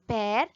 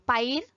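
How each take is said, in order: First: The vowel is a plain 'e' sound. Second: The vowel is a diphthong, like 'ai'. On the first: This is the everyday spoken way of saying it. "So they will tell pear" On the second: This is the careful, formal way of saying it. "Normally we will tell I"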